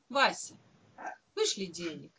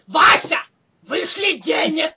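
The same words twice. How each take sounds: First: The request is said in a calm, even tone. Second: The request is said in an angry, demanding tone. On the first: The writer is asking politely. "могла же написать спокойно" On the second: The writer is demanding and irritated. "Так нет же, пишет"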